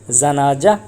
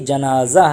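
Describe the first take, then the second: First: The second consonant is a j sound. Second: The second consonant is a z sound. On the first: The speaker calls it wrong. "ना कि ये जनाजा, ऐसा नहीं है" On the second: The speaker calls it right. "नहीं बल्कि जनाज़ा है"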